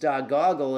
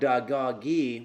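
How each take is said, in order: First: The name ends with an 'l' sound. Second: The name ends with an 'ee' sound. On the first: The speaker calls it right. "Dogoggle is Dogoggle" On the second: The speaker calls it wrong. "not Dagoggy, which I've been saying"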